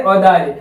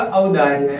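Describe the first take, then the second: First: औदार्य opening on a plain "o"; wrong o vowel. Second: औदार्य opening on a full "au"; correct au vowel. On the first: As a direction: begin औदार्य with "o", not "au". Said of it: "बल्कि हम शुद्ध लिखेंगे तो". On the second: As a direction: begin औदार्य low, drawing out the "au". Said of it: "ऐसे औ की मात्रा होगी". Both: Shown as a demonstration.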